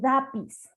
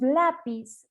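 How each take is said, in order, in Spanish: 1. El sonido de la L es reemplazado por otro sonido. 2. El sonido de la L se pronuncia claramente. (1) "en el fonema de la L está haciendo sustitución" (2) "le decimos lápiz"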